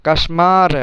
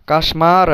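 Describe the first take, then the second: No difference in how they are said.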